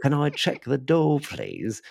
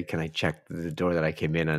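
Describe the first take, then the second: First: Pleading in a put-on Australian accent; broad Australian guest, falling away on the last word; imitation Australian caller; mock Australian accent. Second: Said in the usual way. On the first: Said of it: "Every Australian". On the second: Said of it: "which guest were you imitating there".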